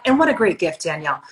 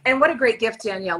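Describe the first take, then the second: First: Light QVC pitch. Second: Higher, bubbly home shopping host; hammed-up QVC host. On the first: Pretend. Friend teasing Danielle with a half-joking QVC pitch. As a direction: lightly sell it like a home shopping host. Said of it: "trying to do Q V C right now". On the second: Hosting a pretend QVC show with her friend, hammed-up and higher. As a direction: oversell it like a TV shopping channel host. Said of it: "We could have our own Q V C show".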